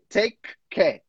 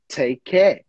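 First: Both k sounds are said separately. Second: The two k sounds are linked into one. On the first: The speaker calls it wrong. "we're not going to say take care" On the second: The speaker calls it right. "we do connected speech and we link them"

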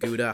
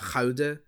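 First: It is said with an English pronunciation. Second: It is said with a Dutch pronunciation. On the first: The speaker calls it wrong. "We should be pronouncing" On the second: The speaker calls it right. "I'm a linguistic originalist"

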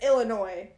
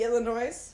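First: The final S is silent. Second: The final S is pronounced. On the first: "why do you not pronounce the S in Illinois? Like, it's Illinois" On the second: "it should be Illinois"

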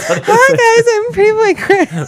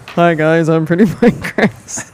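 First: The voice is pitched higher. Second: The voice is pitched deeper.

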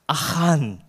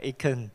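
First: The name is said with a Hebrew pronunciation. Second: The name is said with an American pronunciation. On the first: "the right Hebrew pronunciation is Achan" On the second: "the Americans will pronounce it Achan. Wow, very, very refined"

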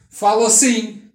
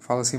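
First: The voice is loud and distant. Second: The voice is quiet and close. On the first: The speaker is away from the microphone. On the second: The speaker is close to the microphone.

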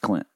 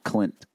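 First: The final T is dropped or barely sounded. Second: The final T is clearly and fully sounded. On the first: "Anything that I can shorten" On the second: "Not Clint"

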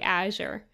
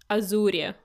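First: The word is said with an English accent. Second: The word is said with a Russian accent. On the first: "They wouldn't be really Azure" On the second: "they would say it with like a Russian accent"

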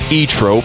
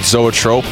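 First: The name begins with a vowel sound. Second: The name begins with a z sound. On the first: This is how the band name is actually said. The speaker calls it right. "but I guess it is indeed pronounced" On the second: This is the common guess at the name. The speaker calls it wrong. "most people, I guess, would pronounce it"

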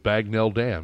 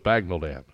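First: The second syllable is full, rhyming with tell. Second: The second syllable is weak and reduced. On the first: The speaker calls it wrong. "I thought it was Bagnell Dam" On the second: The speaker calls it right. "no, it's Bagnell Dam"

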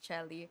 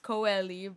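First: The name begins with a ch sound. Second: The name begins with a hard k sound. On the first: This is how the name is really said. The speaker calls it right. "it's pronounced as Chelly" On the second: This is the common but mistaken reading. The speaker calls it wrong. "most people, of course, they think that it's pronounced as Coeli"

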